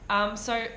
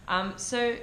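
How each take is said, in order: No difference in how they are said.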